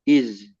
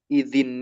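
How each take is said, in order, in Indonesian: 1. Kata ini berakhir dengan konsonan mati. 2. Kata ini berakhir dengan vokal sambung yang ditambahkan. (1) "Dia sukun zalnya" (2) "Kalau mau disambung atau diwasol, kita kasrohkan zalnya"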